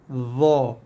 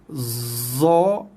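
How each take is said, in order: First: The letter is said with a dh-like sound. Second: The letter is said with a plain z sound. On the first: The speaker calls it right. "bunyi yang tepat bagi huruf ini adalah bunyi dha" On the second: The speaker calls it wrong. "Bunyi za adalah bunyi yang salah sama sekali"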